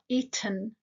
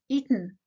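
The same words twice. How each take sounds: First: The t is clearly and fully pronounced. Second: The t is swallowed before the n sound. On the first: The speaker calls it wrong. "It's not eaten" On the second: The speaker calls it right. "it's eaten. Because the t is followed by a n sound"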